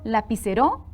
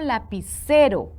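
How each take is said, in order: First: The stress falls on a syllable other than ce. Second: The stress falls on the syllable ce. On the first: The speaker calls it wrong. "¿Tendrá sentido? No" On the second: The speaker calls it right. "C es la sílaba tónica"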